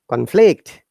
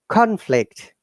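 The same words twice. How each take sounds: First: The stress is on the second syllable. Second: The stress is on the first syllable. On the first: It is used as a verb. "when it's verb, we stress on the second part" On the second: It is used as a noun. "When it is noun, we must all stress on the first syllable"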